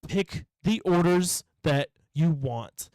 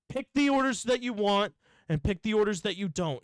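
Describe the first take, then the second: First: Very slow, word-by-word exasperation; exasperated spelling-out. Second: Higher, flowing exasperated instruction; exasperated repeat. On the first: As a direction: say "Pick the orders that you want" slowly, each word set apart. Acted quarrel, spelling out the choice. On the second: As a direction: say "Pick the orders that you want" higher, in one run. Acted quarrel, repeats the choice. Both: Retold or imitated.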